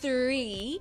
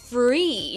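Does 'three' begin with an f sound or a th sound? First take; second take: th sound; f sound. First: It begins with a th sound. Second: It begins with an f sound. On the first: "en lugar de decir three" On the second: "dice free"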